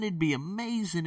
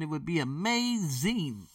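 First: Excited. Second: "amazing" stretched slowly at high pitch; drawn-out emphasis. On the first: Excited about possible online earnings. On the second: Dreaming of online teaching money, "amazing" stretched out high. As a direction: draw out "amazing" with excitement. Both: Real, not acted.

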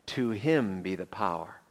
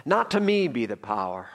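First: "To him" weighted, then falling low; stress on HIM. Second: "Not to me" pitched up, then dropping; stress on NOT TO ME. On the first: Preacher reading Peter's closing praise, low stress on "him". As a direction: lean on "him" and let "be the power" drop. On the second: Preacher speaking for humbled Peter, raised stress on "Not to me". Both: Shown as a demonstration. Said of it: "with emphasis on certain words".

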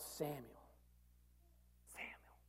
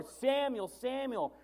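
First: Much softer, breathy whispered call of a name. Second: Samuel called out a bit higher and louder; calling out. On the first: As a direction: call the name so softly it is almost lost. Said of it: "If they said it that softly". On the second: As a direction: call the name clearly across the room. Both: Acted.

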